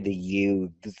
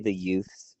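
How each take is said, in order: First: It is said in a scornful, disdainful tone. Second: It is said in a plain, neutral tone. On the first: The speaker calls it right. "when there's disdain for the, ... you say the youths" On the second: The speaker calls it wrong. "you don't say"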